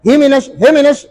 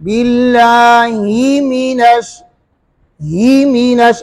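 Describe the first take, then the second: First: हे मिनश with the vowels run together; wrong blended vowel. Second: Very slow बिल्लाही मिनश with the kasra drawn out; slow careful recitation; separated vowels. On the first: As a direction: blur ही into हे as a mistake. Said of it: "ये गलत हो गया". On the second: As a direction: pull ही apart from मिनश. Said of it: "अलग अलग हुआ ना". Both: Shown as a demonstration.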